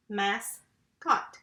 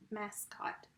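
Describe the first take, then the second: First: "Mascot" in two separate beats, mas, then cot; split into syllables. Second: Said in the usual way. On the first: Shown as a demonstration. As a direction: say "Mascot" with a clear gap between mas and cot. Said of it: "this would be my second syllable". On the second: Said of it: "Got the word mascot here".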